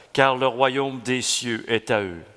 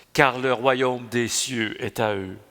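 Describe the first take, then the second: No difference in how they are said.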